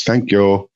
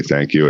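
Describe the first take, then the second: First: "Thank you" as a lilting "tenk-yo", raised pitch; lilting dialect. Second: Said in the usual way. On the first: Shown as a demonstration. Imitating local store clerks, lilting "Thank you" as "tenk-yo". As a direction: lilt "Thank you" higher, with t for th. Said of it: "like, lilting". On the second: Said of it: "when, like, store clerks say".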